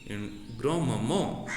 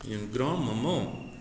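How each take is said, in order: The two takes are said the same way.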